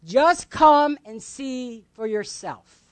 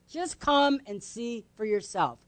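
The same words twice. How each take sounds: First: Slow "come and see", each word set apart; emphatic invitation. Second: Soft, slow, spaced-out repeat; gentle invitation. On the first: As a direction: invite firmly, leaning on "come". Inviting answer, first said out firmly. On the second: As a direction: invite quietly and without pressure. Same invitation repeated softly. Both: Acted.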